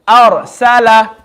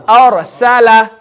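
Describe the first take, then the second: The two takes are said the same way.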